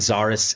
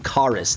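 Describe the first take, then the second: First: The name begins with a 'z' sound. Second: The name begins with a 'k' sound. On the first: This is the plain reading of the written name. "I really think Zarus is the best way to read it" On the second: This follows the Greek mythological original. "So it would be Charis. The X is a chi in Greek"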